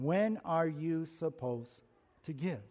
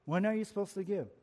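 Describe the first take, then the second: First: "when are you supposed to give?" drawn out slowly, each word weighed; slow, deliberate. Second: "When are you supposed to give?" rattled off fast; fast restatement of the question; quick repeat. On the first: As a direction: pose the question slowly. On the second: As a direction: toss the question out briskly. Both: Shown as a demonstration. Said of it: "When, question".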